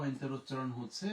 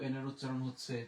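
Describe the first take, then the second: No difference in how they are said.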